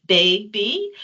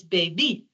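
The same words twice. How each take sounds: First: Put-on BAby, first syllable drawn out and louder; stress on first syllable. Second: Put-on baBY, French-style weight on the final syllable; stress on second syllable. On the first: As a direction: lean on the BA of baby, slowly. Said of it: "emphasis on the first syllable". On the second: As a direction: lean on the BY ending of baby. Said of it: "emphasis on the second syllable". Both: Shown as a demonstration.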